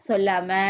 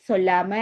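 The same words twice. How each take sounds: No difference in how they are said.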